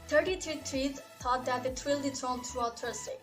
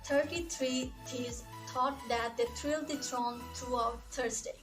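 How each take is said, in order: First: It is said at a faster pace. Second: It is said at a slower pace.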